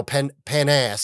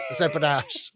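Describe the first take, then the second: First: "pan ass" said slowly as two words, pan plus ass; mangled French word. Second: "panache" said as one word, pa-NASH; correct pronunciation. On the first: Retold or imitated. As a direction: stretch out "pan ass" as a mispronounced panache. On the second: Shown as a demonstration. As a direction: give the proper French "panache".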